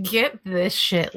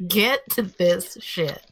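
First: Slow down on get this shit; slow emphatic. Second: Slow down on Get to this shit; slow emphatic. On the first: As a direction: get this shit said slowly, each word stressed. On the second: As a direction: Get to this shit said slowly, each word stressed. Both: Real, not acted.

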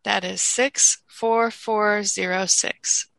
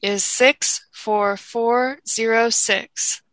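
First: Slow, careful repeat of digits; slow school dictation. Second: Slow, even number dictation; slow school dictation. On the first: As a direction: dictate it slowly once more. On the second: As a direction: read each digit slowly for notes. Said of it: "I will read it twice". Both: Shown as a demonstration.

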